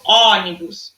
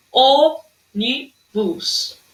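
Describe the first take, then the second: First: ÔNIBUS mispronounced with open ó, "AW-nibus"; wrong open O. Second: ÔNIBUS broken into slow syllables, closed ô. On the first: Teacher showing pupils what not to say, ÔNIBUS with open ó. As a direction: open the first vowel of ÔNIBUS wide. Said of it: "Eu não falo ônibus". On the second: Teacher sounding out for pupils, very slow ÔNIBUS by syllables. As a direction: spell out Ô-NI-BUS with gaps, rounded closed ô. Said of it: "Ó o O fechado". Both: Shown as a demonstration.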